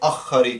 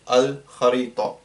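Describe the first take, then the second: First: The L sound merges into the next consonant. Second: The L sound is clearly pronounced before kh. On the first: The speaker calls it wrong. "we're not going to say akharita" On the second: The speaker calls it right. "we'll say al kharita"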